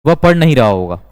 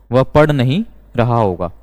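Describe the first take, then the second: First: Said in the usual way. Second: Slower, in separated phrases; measured, phrase-by-phrase dictation; slow repeat. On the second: Shown as a demonstration. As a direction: repeat it slowly for learners, with small pauses. Repeats example slowly for learners.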